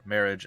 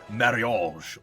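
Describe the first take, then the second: First: It is pronounced with English sounds. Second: It is pronounced with non-English sounds.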